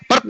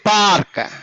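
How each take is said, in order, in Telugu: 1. అచ్చు త్వరగా ముగించారు. ఇది హ్రస్వం. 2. అచ్చు సాగదీశారు. ఇది దీర్ఘం. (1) "పర్క్ అంటే బాగుంటుందా?" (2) "సాగదీయాల అప్పుడు అది పార్క్"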